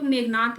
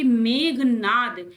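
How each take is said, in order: First: मेघनाथ ending in a t sound; common mispronunciation. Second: मेघनाद drawn out, ending in d; correct pronunciation. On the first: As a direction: say मेघनाथ as megh-naat. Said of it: "mostly लोग मेघनाथ ही बोलते हैं". (मेघनाथ के अंत में 'थ') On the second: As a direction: say मेघनाद slowly as megh-naad. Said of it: "जबकि मेघनाद". (मेघनाद धीरे, अंत में 'द') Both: Shown as a demonstration.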